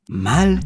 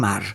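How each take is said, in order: First: The word ends with an L sound. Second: The word ends with an R sound. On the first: It is the local Puerto Rican way of saying the word. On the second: It is the standard form of the word.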